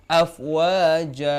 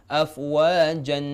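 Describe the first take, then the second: First: The word ends on a vowel held two beats. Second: The word ends with an n sound. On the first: The speaker calls it right. "Dua harakat" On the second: The speaker calls it wrong. "kalau kita berhenti yang salah afwajan"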